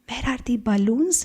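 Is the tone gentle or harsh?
gentle. The tone is soft and polite. A respected elder is present. "But now your tone will be"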